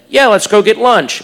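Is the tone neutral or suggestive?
neutral. It is said in a plain, neutral tone.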